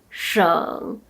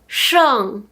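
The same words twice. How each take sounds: First: The pitch dips low, then rises. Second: The pitch falls sharply from high to low.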